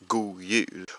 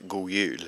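First: The D at the end of 'god' is pronounced. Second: The D is dropped, rolling straight into the Y.

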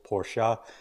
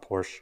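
First: The word is said with two syllables. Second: The word is said with one syllable. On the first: The speaker calls it right. "it's two syllables" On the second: The speaker calls it wrong. "not Porsche"

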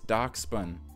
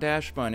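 First: The first syllable sounds like 'docks'. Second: The first syllable sounds like 'dash'. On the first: The speaker calls it right. "it's Doxbun" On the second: The speaker calls it wrong. "I said it wrong. It's not Dashbun"

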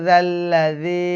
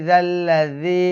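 Both takes have the same delivery.

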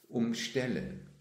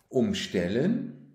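First: The stress is on the second syllable. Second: The stress is on the first syllable. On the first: To surround something. "Die Polizei platzierte sich um das Gebäude herum" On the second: To rearrange something. "Er stellt sie um"

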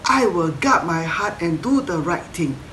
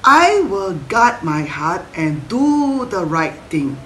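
First: It is said a bit faster. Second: It is said at a normal pace.

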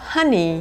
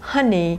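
Both takes have the same delivery.

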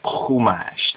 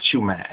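First: The word starts with a guttural throat sound. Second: The word starts with a 'ch' as in church. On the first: The speaker calls it right. "There's no ch sound in Hebrew in that sense" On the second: The speaker calls it wrong. "it's not Chumash"

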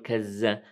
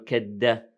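First: The consonant after ka is a z sound. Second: The consonant after ka is a d sound. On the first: "لا نقول كز" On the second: "لا نقول كد"

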